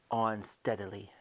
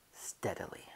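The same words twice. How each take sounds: First: Said in the usual way. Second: Steadily breathed out in a whisper, softer; steadily repeated in a whisper; whispered echo. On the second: Acted. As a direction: whisper steadily as you inch the door. Repeats steadily while creeping.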